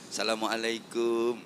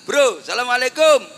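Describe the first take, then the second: First: It is a polite greeting for visiting a home. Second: It is a casual greeting to a friend.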